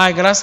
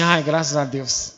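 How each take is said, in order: First: Said in the usual way. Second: Soft, slow sigh of relief, much quieter; husband's hushed, drawn-out thank God; relieved sigh. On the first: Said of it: "E até ela fala". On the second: Retold or imitated. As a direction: breathe the words out in mock relief. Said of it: "Aí eu falo assim".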